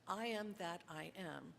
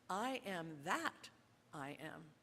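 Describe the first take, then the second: First: The word 'that' carries no special emphasis. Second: The word 'that' carries strong emphasis.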